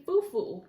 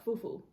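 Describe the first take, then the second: First: Fufu, said with a plain falling end; first try at fufu. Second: Fufu trailing up, unsure; second try at fufu. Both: Real, not acted. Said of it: "I feel like I'm pronouncing it wrong".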